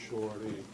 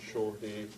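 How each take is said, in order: Both takes have the same delivery.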